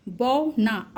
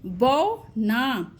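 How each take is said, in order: First: Said in the usual way. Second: बौ ना drawn out very slowly, औ held long; teacher stretching बौ ना for children; very slow demo. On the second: Shown as a demonstration. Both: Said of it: "देखिए लौ".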